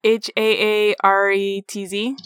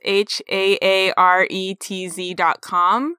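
First: Letters spelled at normal pace; spelling it out. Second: Slow letter-by-letter spelling. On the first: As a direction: rattle off each letter. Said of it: "how do you spell it?". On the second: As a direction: spell each letter out slowly. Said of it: "I don't know how to pronounce this". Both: Shown as a demonstration.

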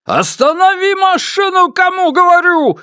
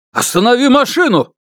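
First: Frantic, much higher screaming order; hysterical shouting. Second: Shouting. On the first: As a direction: scream it, losing control. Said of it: "истерично закричал Ма Дунчень". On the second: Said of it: "истерично закричал". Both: Acted.

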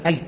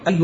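First: أي as "ay", single ya with no vowel after it; unstressed ya. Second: أي with a shadda, ya held double as in "ayy"; doubled ya. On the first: Teacher demonstrating أي without shadda, undoubled ya. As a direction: end أي on an undoubled, silent ya. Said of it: "من غير تشديد الياء". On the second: Teacher correcting the reader's omission, أي with a doubled ya. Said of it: "الخامس أي بالتشديد". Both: Shown as a demonstration.

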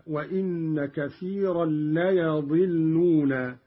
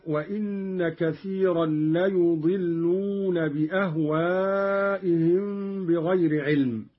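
First: ليضلون said "la-yadilluuna", with ya not yu; fatha on yaa. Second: Said in the usual way. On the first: Shown as a demonstration. Teacher showing Qalun's reading, ليضلون with fatha on yaa. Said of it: "قرأ قالون بفتح الياء هكذا". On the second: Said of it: "قرأ قالون بفتح الياء".

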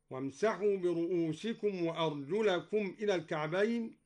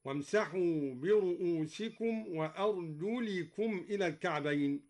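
First: "وأرجلكم" with fatha on the lam; accusative ending. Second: "وأرجلكم" with kasra on the lam; genitive ending. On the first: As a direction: say "وأرجلكم" as wa-arjulakum, a after the lam. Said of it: "قرأ الدوري بخفض أرجلكم". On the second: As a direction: say "وأرجلكم" as wa-arjulikum, i after the lam. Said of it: "قرأ الدوري بخفض أرجلكم هكذا". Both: Shown as a demonstration.

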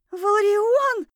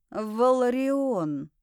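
First: High, loud shriek of the name. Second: Slow, drawn-out full name; correcting. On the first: Heroine calls the man as something stirs beneath her, shrieking. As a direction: scream the name for rescue. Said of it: "заверещала я". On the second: Man corrects heroine on his name, slow and deliberate. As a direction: correct them by stretching the name out. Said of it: "поправил меня он". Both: A narrator's reading.

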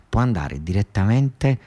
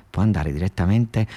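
No difference in how they are said.

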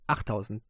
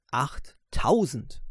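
First: Said in the usual way. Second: "achttausend" drawn out slowly with weight; emphatic stress. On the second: Real, not acted. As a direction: lean on "achttausend", slow and deliberate. ("achttausend" langsam und betont gedehnt) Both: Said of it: "ihr habt's richtig gehört".

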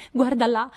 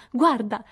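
First: Forte e acuto, trionfante; grido trionfante. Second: Ripetuto forte e acuto; insisti, esultante; grido trionfante. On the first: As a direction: gridalo tutta esultante. (sorelle che trascinano Beth in salotto, grido festoso) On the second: (sorelle che ripetono l'invito, grido festoso) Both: A narrator's reading.

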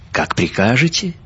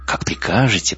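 First: Higher, rising on прикажете; affected courtesy. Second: «Как прикажете» falling at the end; resigned compliance. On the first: Benyovsky answering her request for a story, affectedly courteous. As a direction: lift «Как прикажете» into a mannered question. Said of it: "Бенёвский закатил глаза, развёл изящно руками". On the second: Benyovsky yielding to her request for English, compliant. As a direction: concede it with a falling tune. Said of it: "повторил он". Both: A narrator's reading.

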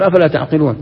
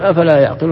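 First: أفلا تعقلون with the ta sound, تَعقلون; ta reading. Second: أفلا يعقلون with the ya sound, يَعقلون; ya reading. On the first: Teacher giving the students' own reading, taʿqilūn with a ta. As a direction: read أفلا تعقلون starting the verb with a clear ta. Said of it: "احنا نقول". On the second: Teacher showing the other reading, yaʿqilūn with a ya. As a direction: read أفلا يعقلون starting the verb with a clear ya. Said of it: "هو يقول". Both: Shown as a demonstration.

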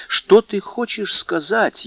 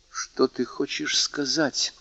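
First: Slow and much higher, challenging; proud challenge. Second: Slow, soft, guarded question; proud challenge. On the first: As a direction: throw the question back defiantly. (гордый вызов, медленно и высоко) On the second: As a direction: hold the challenge back, quietly. (тихий сдержанный вызов) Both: A narrator's reading. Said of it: "спросил Мерседес с гордым вызовом".

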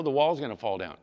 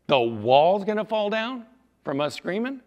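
First: Said in the usual way. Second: High, loud disbelief rising at the end; incredulous question. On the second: Acted. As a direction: repeat it back as if absurd. Warrior reacts with "Say what?.

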